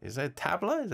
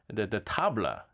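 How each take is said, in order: First: "tabla" with a short a, as in cat; "tabla" as TAB-luh, questioning; tabla pronunciation query. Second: "tabla" with a broad "ah" in the first syllable; "tabla" with an open back a, as in father; tabla pronunciation. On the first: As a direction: ask it with "tabla" rhyming its first syllable with "cab". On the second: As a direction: say "tabla" as TAH-bluh. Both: Shown as a demonstration. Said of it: "is that how you pronounce it".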